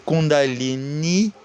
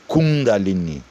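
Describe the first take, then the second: First: The stress falls on the final syllable. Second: The stress falls before the final syllable. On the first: The word is feminine. The speaker calls it right. "com I, né, agudo, acento agudo no I" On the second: The word is masculine and active. The speaker calls it wrong. "não Kundalini"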